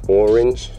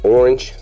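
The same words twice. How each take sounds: First: The word is split into clearly separate syllables. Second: The word is said quickly as one smooth unit. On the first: "If you enunciate it like more than one syllable" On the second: "you just say orange"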